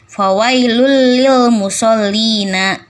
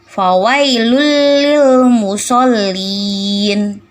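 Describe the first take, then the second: First: The last word ends with an added final vowel. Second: The last word stops on a bare final consonant. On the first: The speaker calls it wrong. "Bukan fawailul lil musallina. Tidak boleh seperti itu" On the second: The speaker calls it right. "Kenapa lin? Karena belakangnya jadi mati"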